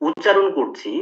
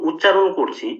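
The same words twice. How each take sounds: Both takes have the same delivery.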